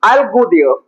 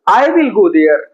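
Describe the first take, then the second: First: 'I will' is shortened to one syllable 'I'll'. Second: 'I will' is said as two full words.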